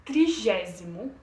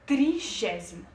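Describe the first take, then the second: First: It is pronounced with Portuguese sounds. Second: The same.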